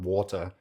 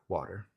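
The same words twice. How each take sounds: First: It is said with a posh British accent. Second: It is said with a North American accent. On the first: "if you're from posh London town" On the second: "us as North American English speakers, gringos, we drink"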